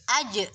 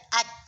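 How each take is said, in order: First: The consonant releases with a strong added echo. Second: The consonant stops with no added echo. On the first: The speaker calls it right. "tapi aj" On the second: The speaker calls it wrong. "bukan dibaca aj"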